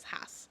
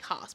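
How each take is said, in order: First: The name is said with an American pronunciation. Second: The name is said with a German pronunciation. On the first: It follows how the American owner says it. "he probably says Haas" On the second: It follows the name's European origin. "then it should be Haas"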